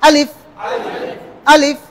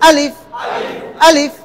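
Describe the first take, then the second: Both takes have the same delivery.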